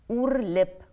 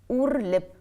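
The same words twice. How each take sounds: No difference in how they are said.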